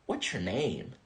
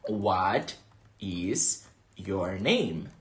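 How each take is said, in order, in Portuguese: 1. As palavras são contraídas e emendadas uma na outra. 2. Cada palavra é dita completa e separadamente. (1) "Elas pronunciam como What's your name?" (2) "A mais comum é essa aqui"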